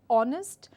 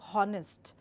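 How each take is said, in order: First: It starts with a vowel, the h is silent. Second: It starts with a clearly sounded h. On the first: The speaker calls it right. "this word is pronounced as honest" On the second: The speaker calls it wrong. "instead of honest"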